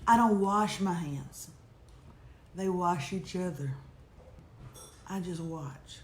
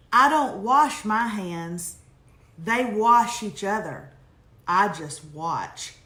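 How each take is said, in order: First: Low, hushed and slow, with long pauses; an Oprah moment, softly intoned and dropping away; dramatic emphasis. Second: Slow, firm line-by-line delivery, falling at the end; deliberate quote reading. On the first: Shown as a demonstration. Repeating the emailed line to the audience, hushed dramatic emphasis. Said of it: "with drama, dramatic emphasis". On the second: Acted. Reading a listener's emailed line to the audience, slow and deliberate. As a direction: read each sentence out deliberately, with pauses. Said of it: "I saw this line the other day".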